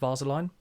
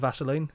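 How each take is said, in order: First: The word is pronounced in an unusual way. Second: The word is pronounced in the usual way. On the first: The speaker calls it wrong. "he will mispronounce words" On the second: The speaker calls it right. "Instead of"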